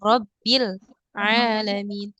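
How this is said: There is a pause between the two words. The speaker calls it wrong.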